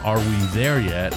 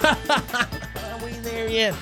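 First: It is said in a plain adult voice. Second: It is said in a whiny child's voice.

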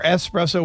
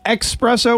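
First: The word starts with an 'es' sound. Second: The word starts with an 'eks' sound. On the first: "espresso with an S" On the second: "espresso with an X"

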